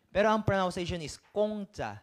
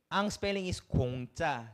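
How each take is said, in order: First: Kongcha said clearly with an open o, louder; proper pronunciation. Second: Kongcha read slowly as spelled, with u sound. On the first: (kongcha na may bukas na o, malakas) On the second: (kongcha binasa nang mabagal ayon sa spelling) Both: Shown as a demonstration.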